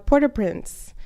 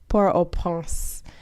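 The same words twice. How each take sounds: First: The T at the end of Port is pronounced. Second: The T at the end of Port is silent. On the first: The speaker calls it wrong. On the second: The speaker calls it right.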